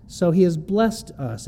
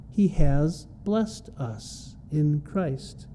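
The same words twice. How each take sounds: First: Said in the usual way. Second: Slow, each word weighed: "has" and "blessed" leaned on; stress on has and blessed. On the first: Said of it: "Note the has and the E D". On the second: Shown as a demonstration. Preacher drilling the tense of a verse for the congregation, slow and stressed. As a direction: hit "has" and the ed of "blessed" slowly. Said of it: "Note the has and the E D on the end of bless".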